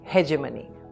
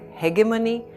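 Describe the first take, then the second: First: It is said with an American pronunciation. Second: It is said with a British pronunciation. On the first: "the Americans say" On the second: "The British pronounce it as"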